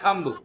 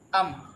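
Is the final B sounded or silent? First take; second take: sounded; silent. First: The final B is pronounced. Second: The final B is silent. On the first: The speaker calls it wrong. "not thumb" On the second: The speaker calls it right. "B is silent"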